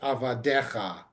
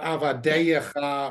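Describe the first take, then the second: First: The word is said with four syllables. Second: The word is said with five syllables. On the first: The speaker calls it right. "It's just avadecha" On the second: The speaker calls it wrong. "it's not avadeyecha"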